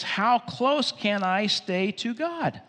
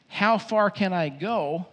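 First: Slow, weighted question leaning on close; the right question. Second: Slow, searching question on how far; the wrong question. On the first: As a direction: stretch out "How close can I stay to God?" and lean on close. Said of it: "The question is". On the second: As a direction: ask "How far can I go?" as the mistaken question, drawn out. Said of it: "that's the wrong question". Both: Shown as a demonstration.

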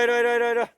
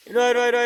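First: High, loud calls stressing 이리; repeated loud call. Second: High, loud calls with the last word stressed; repeated loud call. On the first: Owner calling his hiding dog again, still high and loud. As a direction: call insistently, pressing each 이리. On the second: Owner calling his hiding dog again and again, high and loud. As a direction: keep calling until the dog comes. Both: Real, not acted.

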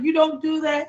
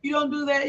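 First: Firm no. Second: Gentle correction. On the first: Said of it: "I was like". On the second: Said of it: "I talked to her like". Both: Retold or imitated.

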